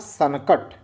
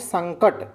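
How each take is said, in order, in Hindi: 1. एक स्वर न और क को अलग करता है। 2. न सीधे क से जुड़ता है। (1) "न बोलना सनकट" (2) "इसे पढ़ोगे तो आप कहोगे संकट"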